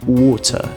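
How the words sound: It has a soft, subtle British R. "no inglês britânico... esse R ele é bem sutil, ele é bem suave"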